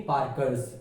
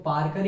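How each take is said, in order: First: पार्कर्स with an s added at the end; wrong plural brand. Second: Said in the usual way. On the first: Shown as a demonstration. Teacher showing how not to name a pen, पार्कर्स ending in s. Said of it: "ऐसे नहीं बोलेंगे". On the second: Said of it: "पार्कर ही होगा उसका नाम".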